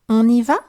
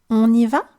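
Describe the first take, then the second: Both takes have the same delivery.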